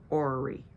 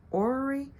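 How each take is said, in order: First: Said in the usual way. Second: "Orrery?" higher, as an unsure question; questioning repeat. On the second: Real, not acted. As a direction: repeat "Orrery?" with pitch lifted, checking the name. Doubts her reading of the name.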